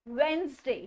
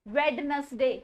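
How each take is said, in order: First: The d is silent, two syllables. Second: The d is pronounced, three syllables. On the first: The speaker calls it right. "डी is silent in this" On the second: The speaker calls it wrong. "वेडनेसडे कुछ नहीं होता है"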